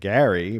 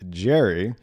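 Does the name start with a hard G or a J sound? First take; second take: hard G; J sound. First: The name starts with a hard G sound. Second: The name starts with a J sound. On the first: This is how the original name was pronounced. "Gary's name is pronounced like Gary" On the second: This is how Americans say it today. "Americans now pronounce it like Jerry"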